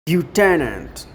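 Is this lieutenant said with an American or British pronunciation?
American. It is said with an American pronunciation. "the Americans say lieutenant"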